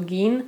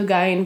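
First: The vowel sounds like 'ee', American style. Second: The vowel sounds like 'eye', German style. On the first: This is how Americans read the name. The speaker calls it wrong. "V Americe oni to čtou Gein" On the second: This is the original German reading of the name. The speaker calls it right. "správně je to Gein, protože je to německý příjmení"

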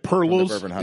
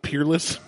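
First: The first syllable sounds like 'per'. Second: The first syllable sounds like 'peer'. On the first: The speaker calls it wrong. "Perlis instead of Peerless?" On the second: The speaker calls it right. "instead of Peerless"

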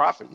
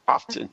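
First: The t sound in the middle is silent. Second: The t sound in the middle is pronounced.

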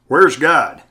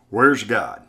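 First: It is said louder and more firmly. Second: It is said softly and mildly.

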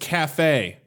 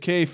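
First: The word is said the French way. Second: The word is said as it is spelled. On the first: "it's French" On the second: "but it's spelled C-A-F-E"

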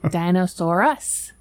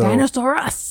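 First: The word is said flatly, without excitement. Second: The word is said excitedly, like an exclamation.

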